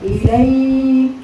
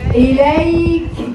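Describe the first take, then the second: First: The k ends with a faint, barely audible puff of air. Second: The k ends with a strong, clearly audible puff of air. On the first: This is how it should normally be recited. "لكن هي المفروض كده. اليك شوفوا الهواء كانك انت ايه؟ مش سامعاه" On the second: The release is exaggerated for teaching. "بس انا بغالي دلوقتي فيه، يعني بقولها بطريقه فيها غلو"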